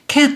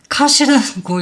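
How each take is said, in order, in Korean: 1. 모음은 평평한 'ae'로 읽어요. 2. 모음은 열린 'ah'로 읽어요. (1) "cat 이렇게 읽는단 말이에요" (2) "아가 되면은 여기를 분명히 컷이라고 읽어야 될 건데"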